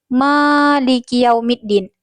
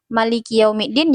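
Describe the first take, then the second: First: The first vowel of Maliki is held long. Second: The first vowel of Maliki is kept short. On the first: The alif is counted as a letter. "Kalau menghitung alif pada Maliki" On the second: The alif is not counted as a letter. "kalau tidak dihitung alif pada Maliki"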